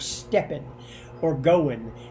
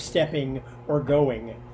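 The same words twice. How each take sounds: First: The endings are clipped to an N sound. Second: The endings keep the full NG sound. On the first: "ing sounds get clipped to just N" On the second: "instead of"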